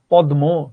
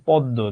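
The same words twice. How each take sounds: First: পদ্ম as "pod-mo", m fully sounded, louder; পদ্ম split loudly into pod and mo; wrong spelling pronunciation. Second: পদ্ম as "poddo", d doubled and m silent; পদ্ম with a long dd; correct doubled sound. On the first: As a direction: pronounce the written m in পদ্ম. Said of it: "তুমি তো পদ্মও বলো না". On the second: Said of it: "তুমি নিজেই তো জানো এটার উচ্চারণ". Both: Shown as a demonstration.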